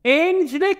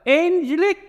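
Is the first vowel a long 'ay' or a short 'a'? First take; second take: long ay; long ay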